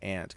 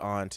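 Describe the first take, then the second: First: It is said the plain American way. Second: It is said the Australian way.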